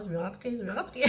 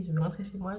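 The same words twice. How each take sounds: First: Laughing through a homesick plea; half-laughing, pleading to go home. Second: Said in the usual way. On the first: Real, not acted. Mother longing for home, laughing it off.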